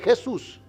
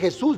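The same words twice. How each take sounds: First: The stress is on the first syllable. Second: The stress is on the last syllable. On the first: The name is said without its written accent. The speaker calls it wrong. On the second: The name is said with its written accent. The speaker calls it right. "sin el acento no dice"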